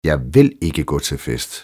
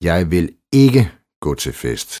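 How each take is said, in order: First: The stress falls on the word vil. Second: The stress falls on the word ikke. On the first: The speaker firmly refuses to be persuaded. "Du får mig aldrig afsted" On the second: The speaker has already said no once. "Det har jeg jo allerede sagt en gang"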